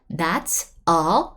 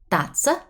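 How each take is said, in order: First: The words are said separately, not linked. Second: The words are linked smoothly into one. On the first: The speaker calls it wrong. "So it's not that's a something" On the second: The speaker calls it right. "It's connected"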